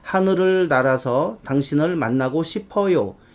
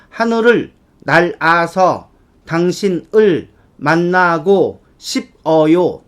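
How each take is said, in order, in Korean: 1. 소리가 자연스럽게 흐르고, 자음이 다음 음절과 이어져요. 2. 각 음절을 철자 그대로 따로따로 발음해요. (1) "발음 나는 대로 편안하게" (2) "그대로 한번 읽어볼까요?"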